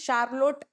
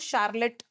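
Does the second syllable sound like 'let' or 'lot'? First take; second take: lot; let. First: The second syllable sounds like 'lot'. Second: The second syllable sounds like 'let'. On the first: This follows the spelling of the name. "Actually इसका real name है शार्लोट" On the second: This is how people actually say it. "But बोलते pronunciation जो है वो शार्लेट ऐसा आता है"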